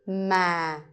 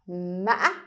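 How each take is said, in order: First: The pitch is low. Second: The voice breaks and ends very high. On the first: "the line is telling you to go low" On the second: "it sounds like you trip when you say this word"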